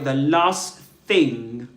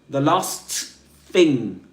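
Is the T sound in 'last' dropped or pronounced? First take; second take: dropped; pronounced. First: The T at the end of last is dropped. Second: The T at the end of last is pronounced.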